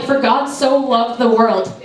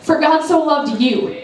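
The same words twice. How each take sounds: First: Said in the usual way. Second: "you" said slowly and personally, as the key word; slow, personal "For God so loved you"; stress on you. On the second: Shown as a demonstration. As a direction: land gently on "you" as if speaking to one listener. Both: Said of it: "put your name in there".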